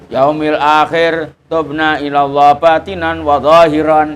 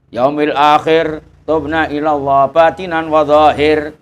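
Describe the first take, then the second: First: The last word ends with an added '-an'. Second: The last word ends bare, without '-an'. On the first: The speaker calls it wrong. "ya kena wae tapi ya ora patek nyaman, dengernya ndak patek bagus" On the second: The speaker calls it right. "Jadi memang dimatikan gitu dari Hadramut"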